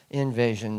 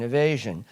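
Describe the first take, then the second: First: Said in the usual way. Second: "evasion" said as ee-VAY-zhun, with no n; "evasion" with a clear ee start, the slip before the correction; says evasion. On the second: Real, not acted.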